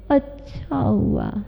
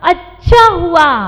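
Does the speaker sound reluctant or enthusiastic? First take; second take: reluctant; enthusiastic. First: It sounds reluctant, hinting it did not go well. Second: It sounds enthusiastic, meaning it really went well.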